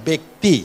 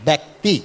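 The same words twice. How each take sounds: The two takes are said the same way.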